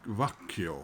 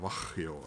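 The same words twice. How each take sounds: First: "Vacchio" tried slowly, with a hard k; first try at pronunciation. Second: "Vacchio" with a softer, h-like middle; alternative pronunciation. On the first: Vlogger reading album title, unsure pronunciation of "Vacchio". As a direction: sound out "Vacchio" carefully, hard k in the middle. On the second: Vlogger second-guessing album title, alternative pronunciation of "Vacchio". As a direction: offer "Vacchio" lower and softer, throaty h for the k. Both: Shown as a demonstration. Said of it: "not sure about the pronunciation".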